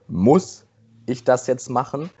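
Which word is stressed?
muss. The word muss is stressed. It asks whether the task is necessary at all. "die erste Betonung ist"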